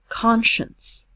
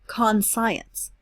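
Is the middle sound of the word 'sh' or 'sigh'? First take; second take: sh; sigh. First: The middle letters are said with a sh sound. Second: The middle letters are said like the word sigh. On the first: The speaker calls it right. "we say conscience, a sh sound" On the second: The speaker calls it wrong. "not conscience"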